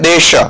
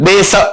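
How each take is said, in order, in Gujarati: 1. શબ્દનો અંત sh અવાજથી થાય છે. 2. શબ્દનો અંત સાદા s અવાજથી થાય છે. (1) "જે આપણે બોલીએ છીએ અત્યારે દેશ શ શ્યામજીભાઈ શરણાઈનો" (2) "સ સકોરાનો આપણે સાદી ભાષામાં કે સસલાનો કરે છે હા સસલાનો સ"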